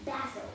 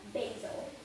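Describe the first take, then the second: First: It is said in a British accent. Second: It is said in an American accent. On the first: "But in British English, it is no longer basil. It is pronounced basil" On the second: "Basil is pronounced in American English. So we pronounce bay"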